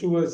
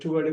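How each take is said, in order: First: The word ends with an s sound. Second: The word ends without an s sound. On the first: This is the British form. "யூகேல வந்து டுவர்ட்ஸ்" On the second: This is the American form. "Americans ... எஸ் cut பண்ணிடுவாங்க"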